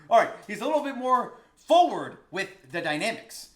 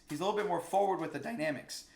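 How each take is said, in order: First: Loud and high, still riding the high; triumphant. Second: Said in the usual way. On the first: Real, not acted. Teacher restating his point after finding the word, loud and triumphant. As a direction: declare it with a win in the voice.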